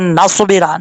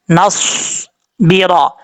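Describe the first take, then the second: First: नसबिरा said the wrong way, as people do; wrong reading. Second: Slow नसबिरा with a heavy स्वाद and no कलकला; correct recitation. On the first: Retold or imitated. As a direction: mimic the common mistake on नसबिरा. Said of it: "नसबिरा नहीं पढ़ना". (गलत तरीके से नसबिरा) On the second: Shown as a demonstration. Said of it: "स्वाद हरूफ मुस्ताला में से अपुर पढ़ा जाएगा". (सही तजवीद से धीमा नसबिरा)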